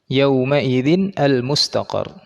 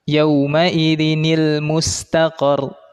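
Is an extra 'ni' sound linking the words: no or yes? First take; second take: no; yes. First: The words are said apart with no linking sound. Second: A linking 'nil' sound joins the words together.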